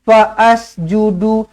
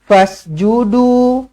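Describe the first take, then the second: First: An extra 'a' vowel is sounded before the s. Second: The s follows 'fa' directly, with no added vowel. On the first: The speaker calls it wrong. "Jangan dibaris-bariskan" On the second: The speaker calls it right. "hamzah wasal pada tengah-tengah kalimah tidak tidak berfungsi"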